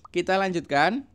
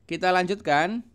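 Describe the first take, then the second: Both takes have the same delivery.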